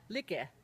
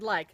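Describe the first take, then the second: First: "like" as lee-keh, final e sounded; Finnish sounding-out. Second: Said in the usual way. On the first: Shown as a demonstration. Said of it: "couldn't just be easily sounded out". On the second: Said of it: "or the word like".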